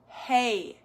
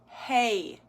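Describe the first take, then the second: First: The vowel glides upward at the end. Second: The vowel glides upward at the end.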